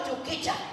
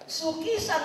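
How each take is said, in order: First: The word begins with a ch sound. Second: The word begins with an s sound. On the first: The speaker calls it wrong. "not chukicha" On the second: The speaker calls it right. "The word is chuk- sukisa"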